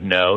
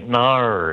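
First: Said in the usual way. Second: "nar" drawn out long with a curled, R-like ending; Australian-style NO. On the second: Shown as a demonstration. American actor imitating Australians, "nar" slowly drawn out. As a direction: stretch "nar" into a mock-Aussie vowel. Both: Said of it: "instead of no, you say nar".

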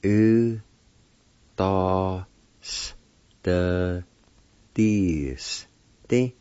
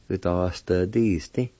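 First: "U, da, s, the, dis, di" with long gaps; each piece of "U, da, s, the, dis, di" held separately; broken into syllables. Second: Said in the usual way. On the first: Shown as a demonstration. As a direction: sound out "U, da, s, the, dis, di" slowly. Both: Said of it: "pronounced like this".

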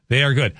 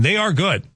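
First: Said in the usual way. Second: "are" lifted high and leaned on; stress on ARE. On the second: Shown as a demonstration. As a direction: hit "are" hard and high.

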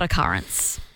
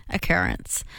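First: "occurrence" with middle vowel like "cup"; rejected pronunciation. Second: "occurrence" with middle vowel like "her"; her preferred pronunciation. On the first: Co-host quoting the version she disputes, rejected pronunciation. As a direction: say "occurrence" as uh-CUH-rence, like "currents". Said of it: "not occurrence". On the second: Co-host insisting on how the word is said, preferred pronunciation. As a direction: say "occurrence" as oh-KER-ence. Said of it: "how we're meant to say it". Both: Shown as a demonstration.

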